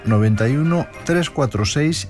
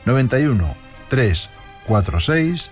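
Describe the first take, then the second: First: The number is said at normal speed. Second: The number is said slowly.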